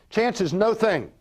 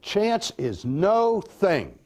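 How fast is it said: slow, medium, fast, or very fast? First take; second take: medium; slow. First: It is said a bit faster. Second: It is said slowly, words apart.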